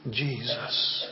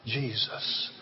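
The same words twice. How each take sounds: The two takes are said the same way.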